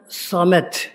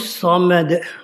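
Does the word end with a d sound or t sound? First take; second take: t sound; d sound. First: The word ends with a voiceless t sound. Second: The word ends with a voiced d sound. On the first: The speaker calls it wrong. "Haşa bazıları Samet" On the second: The speaker calls it right. "Yani buradaki dal D muhterem"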